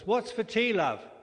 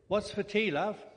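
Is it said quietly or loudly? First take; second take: loudly; quietly. First: It is said in a loud voice. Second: It is said at a normal, quiet volume.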